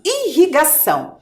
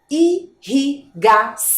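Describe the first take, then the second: First: Said in the usual way. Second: "Irrigação" slowly split into four separate syllables. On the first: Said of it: "Estão vendo?". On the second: Shown as a demonstration. Teacher revealing the word as it appears, syllable by syllable. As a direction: sound out "Irrigação" with a pause after each syllable. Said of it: "Olhem lá a palavra aparecendo".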